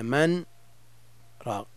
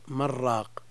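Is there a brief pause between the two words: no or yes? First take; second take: yes; no. First: A brief pause separates the two words. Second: The words run together with the n merged. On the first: The speaker calls it right. "هل يجب السكت عند قوله من راق؟" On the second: The speaker calls it wrong. "إذا وصلنا من راق، نعم، صار اللفظ"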